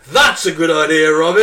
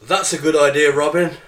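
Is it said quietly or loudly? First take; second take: loudly; quietly. First: It is said very loudly, with gusto. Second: It is said at a plain, normal volume.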